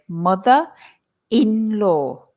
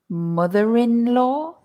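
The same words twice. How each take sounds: First: No R sound between 'mother' and 'in'. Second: An R sound links 'mother' to 'in'. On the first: The speaker calls it wrong. "If we don't pronounce the R" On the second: The speaker calls it right. "the R appears again in the pronunciation because it helps us say it quickly"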